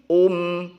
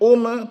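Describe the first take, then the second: First: The final m is held with no release. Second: The final m is released with a vowel. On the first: The speaker calls it right. "Tapi ... um" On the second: The speaker calls it wrong. "Bukan ... ume, bukan seperti itu"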